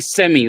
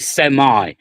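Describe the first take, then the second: First: It is said in the speaker's own non-American accent. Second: It is said in an American accent.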